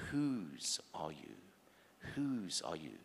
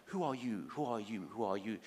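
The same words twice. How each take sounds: First: Slow, weighty "Whose", lower on "are you"; deliberate, measured "Whose are you"; stress on WHOSE. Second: "Who are you" fired off in quick succession; brisk, pressing "Who are you"; rapid repeated question. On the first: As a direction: draw out "Whose" and let the question settle. Bible's question, contrasted with world's. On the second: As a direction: rattle out "Who are you" as an insistent demand. World's question against the Bible's. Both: Acted.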